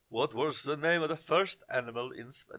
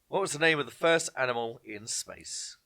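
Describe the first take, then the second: First: It is read in a put-on Russian accent. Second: It is read in the speaker's plain accent.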